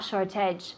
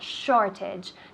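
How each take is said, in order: First: The stress is on the second syllable. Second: The stress is on the first syllable. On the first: The speaker calls it wrong. "not shortage" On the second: The speaker calls it right. "The emphasis of the word is in the first syllable"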